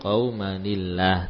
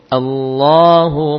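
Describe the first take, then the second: First: The L in Allah is thin and light. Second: The L in Allah is thick and heavy. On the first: "jadi tipis" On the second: "Ini kalau kita baca dari lafzul jalalahnya Allahu tebal"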